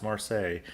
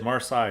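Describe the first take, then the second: First: Marseille with the ending rhyming with "say"; corrected Marseille. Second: Marseille with the ending rhyming with "sigh"; mispronounced Marseille. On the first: Shown as a demonstration. Podcaster correcting last week's slip, Marseille ending in "ay". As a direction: end Marseille on an "ay" sound. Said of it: "it's Marseille". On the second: Retold or imitated. Podcaster owning up to last week's slip, mispronounced Marseille ending in "eye". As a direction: end Marseille on an "eye" sound. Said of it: "last week I said Marseille".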